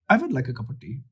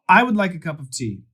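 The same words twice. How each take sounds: First: It is said in an Indian accent. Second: It is said in an American accent. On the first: "The W is almost a V" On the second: "that's the American pronunciation"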